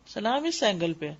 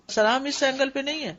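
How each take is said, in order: First: The word اس leaned on, said softer with a falling tune; stress on اس. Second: The word اینگل leaned on, falling tune; teacher points at اینگل to mark the wrong angle; stress on اینگل. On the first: Showing students the right salam angle, اس stressed softly. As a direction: settle firmly on اس, this angle. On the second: Showing students the wrong salam angle, اینگل stressed. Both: Shown as a demonstration.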